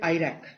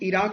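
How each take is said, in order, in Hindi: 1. यह शब्द 'eye' ध्वनि से शुरू होता है। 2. यह शब्द 'ee' ध्वनि से शुरू होता है। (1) "एज आयरैक" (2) "इराक एज"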